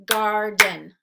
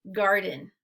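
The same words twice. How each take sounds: First: Garden said as two separate beats, gar then den, with a pause between; split into syllables. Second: Said in the usual way. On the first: Shown as a demonstration. Teacher models syllables for kids: Garden split into gar and den. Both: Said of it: "then we'll blend them together".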